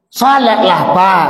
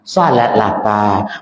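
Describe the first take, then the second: First: It is said in a somewhat louder, harder voice. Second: It is said in a soft, gentle voice.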